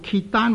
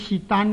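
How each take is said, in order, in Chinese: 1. 第一个音节听起来像 kit。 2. 第一个音节听起来像 sit。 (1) "若果读做揭丹或者舌丹呢，是读错了的" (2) "若果读做揭丹或者舌丹呢，是读错了的"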